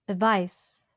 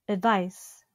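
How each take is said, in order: No difference in how they are said.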